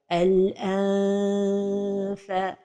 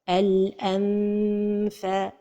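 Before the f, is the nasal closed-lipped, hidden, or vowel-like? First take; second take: vowel-like; closed-lipped. First: The nasal is stretched into a long vowel sound. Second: The lips close on the nasal before the f. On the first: "trop éloigner la langue du palais supérieur... comme si on prononçait un med" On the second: "L'erreur avec la lettre fa, c'est de fermer les lèvres"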